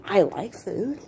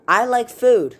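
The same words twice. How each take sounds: First: "I like food" with pitch climbing high on food; questioning. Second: "I like food" loud and high, falling firmly on food; firm statement. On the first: Tasting food for the first time, puzzled question. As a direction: ask "I like food" in disbelief, swooping up at the end. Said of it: "with a question mark". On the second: Writing teacher demonstrating a period, firm statement. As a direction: declare "I like food" emphatically, ending in a full stop. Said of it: "with a period". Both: Shown as a demonstration.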